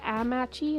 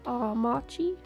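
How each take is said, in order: First: The first A is a flat North American vowel. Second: The first A is a softer, broader vowel. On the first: "It's not my my little North America A" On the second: "It's like a softer A"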